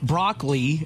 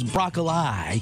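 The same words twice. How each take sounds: First: The word is pronounced the ordinary, standard way. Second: The word is pronounced with deliberately altered sounds.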